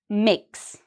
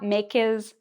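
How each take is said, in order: First: The word is said as one syllable. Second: The word is split into two syllables. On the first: The speaker calls it right. "it's only one syllable" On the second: The speaker calls it wrong. "It's not makes"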